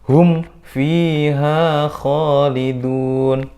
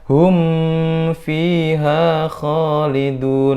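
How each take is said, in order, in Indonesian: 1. M-nya pendek dan jelas, satu ketukan. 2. M-nya ditahan dengan dengung sengau. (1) "harusnya dibaca terang" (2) "nggak boleh dibaca"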